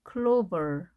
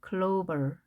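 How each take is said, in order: No difference in how they are said.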